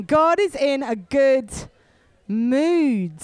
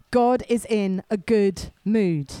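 First: Louder, with more force; say it again louder. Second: Said in the usual way. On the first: Shown as a demonstration. Preacher urging the church to repeat it louder. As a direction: declare it louder to the room. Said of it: "Say it again". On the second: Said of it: "Tell your neighbor".

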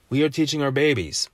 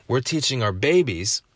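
First: "are" said in full and stressed. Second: Said in the usual way. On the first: Real, not acted. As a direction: lean firmly on the word "are". Restates line, stressing are.

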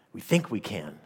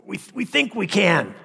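First: Said in the usual way. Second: High, loud mad villain voice; unhinged villain. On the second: Pretend. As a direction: gloat like a crazed supervillain. Mock villain boast, sermon joke.

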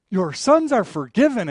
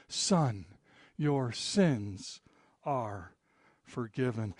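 First: Louder, proclaiming the forgiveness; emphatic pronouncement. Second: Softer, hushed words of forgiveness; soft pronouncement. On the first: Jesus proclaims forgiveness before the teachers, loud and emphatic. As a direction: declare it out loud to the crowd. Jesus's words restated as trigger. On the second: Jesus quietly forgives the paralyzed man, soft and gentle. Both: Acted.

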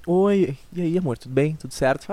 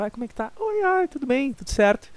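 First: Said in the usual way. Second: Put-on high, sweet girlfriend reply, much higher pitched. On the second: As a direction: play the girlfriend answering in a high voice.

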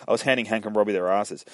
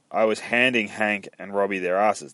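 First: Quick, run-together delivery of the line; fluent retake. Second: Deliberate, with HANDING picked out; careful retake. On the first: Alice telling the sheriff, quick and fluent. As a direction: rattle off "handing Hank and Robbie" smoothly. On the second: Alice telling the sheriff, careful and measured. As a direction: take "handing Hank and Robbie" word by word. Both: Acted.

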